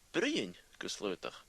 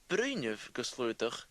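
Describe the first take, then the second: First: The first word is said in a shortened form. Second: The first word is said in its full form. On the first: It is the casual way to speak to a close friend. "Bruinev becomes Bruin" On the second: It is the formal way of speaking. "the formal form"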